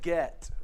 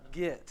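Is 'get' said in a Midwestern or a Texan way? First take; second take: Midwestern; Texan. First: It is said in a non-Texan, Midwestern way. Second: It is said in a Texan way. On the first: "So you might say get" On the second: "It's get"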